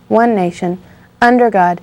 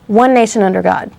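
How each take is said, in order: First: There is a pause before "under God". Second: The words run together without a pause. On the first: The speaker calls it wrong. "you don't say" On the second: The speaker calls it right. "you had to string those two together"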